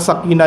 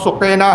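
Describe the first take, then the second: First: The name starts with 'sa' and has 'ee'. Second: The name starts with 'su' and has 'ai'. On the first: This is the commonly used form. The speaker calls it wrong. "आमतौर पर सकीना ही बोलते हैं सब" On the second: This follows Arabic articulation. The speaker calls it right. "सही pronounce सुकैना है"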